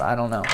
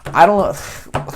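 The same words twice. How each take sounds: First: Said in the usual way. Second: Goofy, higher and louder; silly voice. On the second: Pretend. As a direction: play it silly and bright-eyed.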